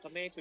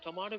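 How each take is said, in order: First: It is said with an American pronunciation. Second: It is said with a British pronunciation. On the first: "called in the um, United States of America" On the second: "spoken in British"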